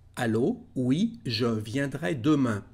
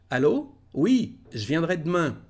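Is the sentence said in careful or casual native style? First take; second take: careful; casual. First: Said carefully, with every sound kept clear. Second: Said casually, with sounds reduced and linked. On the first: "Primeramente de forma normal" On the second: "ahora vamos a mejorar eso y a hablar como un verdadero francés"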